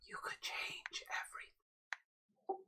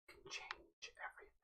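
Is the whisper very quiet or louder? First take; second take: louder; very quiet. First: It is a louder stage whisper. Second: It is whispered very quietly.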